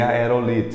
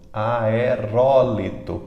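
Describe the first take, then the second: First: The stress falls on the syllable "li". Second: The stress falls on the syllable "ro". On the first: The speaker calls it wrong. "nós queremos dizer aerolito" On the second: The speaker calls it right. "ela sempre é proparoxítona"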